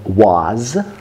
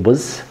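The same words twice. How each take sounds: First: The word is stressed with a full vowel. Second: The word is unstressed with a reduced vowel. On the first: "Если бы ударяли, было бы" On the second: "because we don't stress it, we say"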